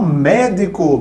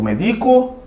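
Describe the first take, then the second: First: The stress is on the first syllable. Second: The stress is on the second syllable. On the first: It is the noun meaning a doctor. "colocamos um acento" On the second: It is the verb form meaning to medicate. "é uma forma verbal de medicar"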